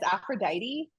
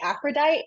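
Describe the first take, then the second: First: The name is said with all its syllables. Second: The name is shortened, with a syllable dropped. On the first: The speaker calls it right. "I know in my brain it's Aphrodite" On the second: The speaker calls it wrong. "my tongue gets tired of like all the syllables"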